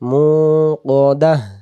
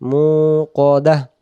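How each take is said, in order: No difference in how they are said.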